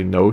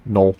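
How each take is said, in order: First: Said in the usual way. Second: Imitated Korean-accented "No"; friend's Korean accent on "No". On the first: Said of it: "It's just so funny how she talks". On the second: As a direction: say "No" as a short Korean-accented sound. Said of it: "She has a great accent".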